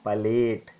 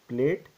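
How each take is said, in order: First: The word is said with two syllables. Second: The word is squeezed into one syllable. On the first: The speaker calls it right. "it is palate" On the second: The speaker calls it wrong. "it is not pronounced as plate"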